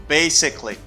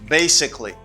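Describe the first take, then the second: No difference in how they are said.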